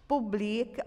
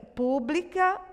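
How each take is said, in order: First: Publica with the stress on BLI and a rising tune. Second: Pública said higher, stress on the first syllable PÚ. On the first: Teacher showing the verb publica, stress on BLI. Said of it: "Nesse caso aqui, é um verbo". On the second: Teacher showing the adjective pública, stress on PÚ. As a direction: say pública as PÚ-bli-ca. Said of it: "Palavrinha proparoxítona". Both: Shown as a demonstration.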